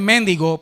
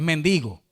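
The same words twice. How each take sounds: First: The stress is on the first syllable. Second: The stress is on the second syllable. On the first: The speaker calls it wrong. "no es mendigo porque no tiene acento en la E" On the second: The speaker calls it right. "La fuerza de pronunciación está en la penúltima sílaba"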